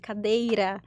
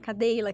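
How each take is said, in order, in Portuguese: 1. A consoante do meio é um R simples, de uma batida só. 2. A consoante do meio é um som de L. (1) "não consegue falar o R de cadeira" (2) "fala cadeila, que como se fosse o Cebolinha"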